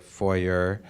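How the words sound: It is said in an American way.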